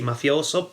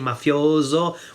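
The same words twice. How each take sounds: First: The middle s sound is voiceless, like s. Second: The middle s sound is voiced, like z. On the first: This is how a central or southern speaker says it. "probably with the unvoiced S" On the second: This is how a northern speaker says it. "I would say mafioso with the voiced S"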